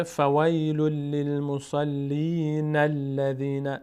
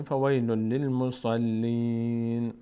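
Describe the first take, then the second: First: Slow chant of فویل للمصلین الذین with no stop; drawn-out, joined chanting of للمصلین الذین; continuous recitation. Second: Slow chant of فویل للمصلین, closing on a long "een"; drawn-out فویل للمصلین with a final pause; stopping recitation. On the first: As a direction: link the n of للمصلین straight into الذین as "na-lladhina". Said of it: "اگر خواستیم ادامه بدیم". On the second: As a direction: hold the ee of للمصلین level, then stop on n. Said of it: "اینجا توقف بکنیم". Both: Shown as a demonstration.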